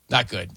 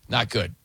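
No difference in how they are said.

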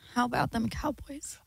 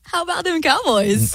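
First: It is said in a sad tone. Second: It is said in an embarrassed tone.

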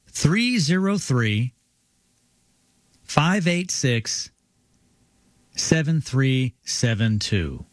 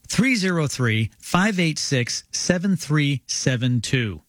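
First: It is read a little more slowly. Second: It is read at a normal speed.

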